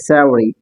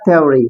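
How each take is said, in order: First: The word begins with a soft th sound. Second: The word begins with an aspirated t sound. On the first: "हालांकि हकीकत में ये सेवरी है" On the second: "ज्यादातर लोग इसको थ्योरी पढ़ते हैं"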